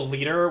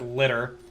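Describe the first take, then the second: First: The first vowel is a long ee sound. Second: The first vowel is a short i sound. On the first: The speaker calls it right. "There's also Leader" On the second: The speaker calls it wrong. "which the English version pronounces as litter"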